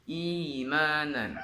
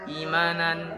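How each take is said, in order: First: The opening vowel is held for two beats. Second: The opening vowel is cut too short. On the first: The speaker calls it right. "Kita panjangkan dua harokat" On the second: The speaker calls it wrong. "itu kan terlalu pendek"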